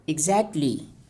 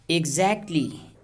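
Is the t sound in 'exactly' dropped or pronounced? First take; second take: dropped; dropped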